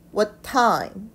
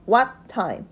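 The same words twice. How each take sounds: First: The stress falls on the word time. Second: The stress falls on the word what. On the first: The speaker calls it right. "what time 이렇게 돼야 됩니다" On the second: The speaker calls it wrong. "what은요 what time 이렇게 찝어주는 것이 아니라"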